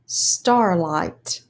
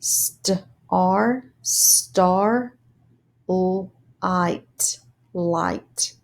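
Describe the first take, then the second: First: Said in the usual way. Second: "Star star light light" syllables repeated; sounded out syllables. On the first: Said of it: "put it together as words". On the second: Shown as a demonstration. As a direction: sound out starlight piece by piece. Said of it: "read the syllables".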